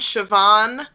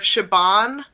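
First: The middle consonant sounds like a V. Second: The middle consonant sounds like a B. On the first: "we're saying it with more of a V than a B sound" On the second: "Instead of"

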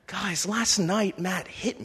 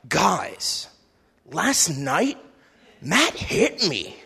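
First: It is said in a neutral tone. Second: It is said in a proud tone.

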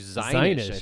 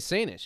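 First: The name begins with a Z sound. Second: The name begins with an S sound. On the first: This is the supposedly correct form. The speaker calls it right. "it's actually Zinish" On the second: This is how the speaker usually says it. The speaker calls it wrong. "I mispronounce it. I say Sanish"

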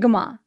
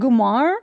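First: The word ends without an r sound. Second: The word ends with an r sound. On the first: "not the way we say it" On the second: "there's an R at the end of it"

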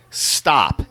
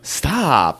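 First: The word is said in a firm, serious tone. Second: The word is said in a teasing, playful tone. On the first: The person really wants it to stop. "That means stop" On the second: The person does not really want it to stop. "That doesn't mean stop"

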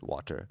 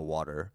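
First: The T is pronounced clearly and crisply. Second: The T is softened into a quick flap. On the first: This is the speaker's own natural pronunciation. "I pronounced the T water" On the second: This is the American-sounding pronunciation. "and not water"

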